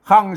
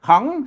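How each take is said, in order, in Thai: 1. ออกเสียง ขัง ด้วยเสียงต่ำ 2. ออกเสียง ขัง ด้วยเสียงจัตวา (1) "เสียงเอก" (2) "เสียงเจรวา"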